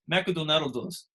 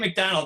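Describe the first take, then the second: First: Japanese style, with vowels between the consonants. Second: Plain English, with consonants next to each other. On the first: "They can't say consonants next to each other. It's McDonald's" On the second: "They don't say McDonald's"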